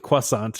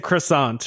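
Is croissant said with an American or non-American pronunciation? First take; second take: non-American; American. First: Croissant is said with a non-American pronunciation. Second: Croissant is said with an American pronunciation. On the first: The speaker calls it right. "You say it the the, the correct way" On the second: The speaker calls it wrong. "I say it the stupid American way"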